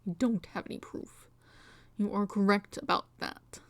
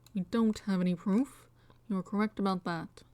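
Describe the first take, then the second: First: It is said in a voice unlike Edgeworth's. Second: It is said in Edgeworth's voice.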